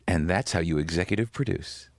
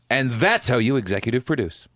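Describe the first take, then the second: First: It is said fairly quietly and restrained. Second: It is said loudly and boisterously.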